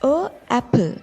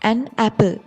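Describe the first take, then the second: First: The article is a bare vowel before apple. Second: An n sound links the article to apple. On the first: It is awkward to pronounce. The speaker calls it wrong. "ටිකක් කියන්න අමාරුයි වගේ" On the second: It is easy to pronounce. The speaker calls it right. "an apple කිව්වොත් උච්චාරණය පහසුයි"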